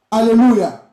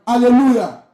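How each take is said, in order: Both takes have the same delivery.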